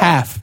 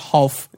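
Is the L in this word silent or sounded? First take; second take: silent; sounded. First: The L is silent in the word. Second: The L is clearly sounded in the word. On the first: The speaker calls it right. "it's a silent L" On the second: The speaker calls it wrong. "It's not half"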